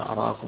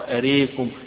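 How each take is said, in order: First: The long vowel after r is an open a. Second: The long vowel after r is tilted toward e.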